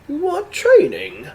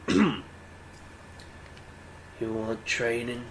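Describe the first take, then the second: First: It is said in a quirky old man's voice. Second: It is said in a plain, ordinary voice. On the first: The speaker calls it right. "quirky old guy" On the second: The speaker calls it wrong. "Uh, no. What's a good voice for this?"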